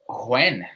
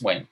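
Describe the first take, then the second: First: The word starts with a breathy h sound. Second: The word starts with no h sound. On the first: The speaker calls it wrong. "You're pronouncing this weird" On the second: The speaker calls it right. "you don't pronounce this H"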